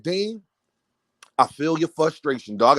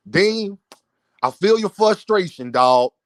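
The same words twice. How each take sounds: First: Said in the usual way. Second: A hint of someone else's drawn-out phrasing; Knockout impression. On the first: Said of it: "I say it like him". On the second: Host quoting Knockout's message to Dean, lightly imitated. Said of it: "I gotta say it like Knockout say".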